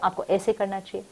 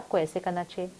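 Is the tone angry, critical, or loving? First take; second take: angry; loving. First: It is said in an angry tone. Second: It is said in a warm, loving tone. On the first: The speaker is upset with the listener. "I can say that with anger" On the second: The speaker cares about the listener. "I can say that with lot of love"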